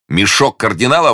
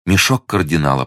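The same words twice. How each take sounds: First: High, delighted outburst; merry, pitched-up astonishment; amused exclamation. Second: Said in the usual way. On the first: A narrator's reading. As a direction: cry it out with incredulous glee. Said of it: "воскликнул Д'Артаньян, громко смеясь". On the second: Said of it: "подтвердила госпожа Бонасье".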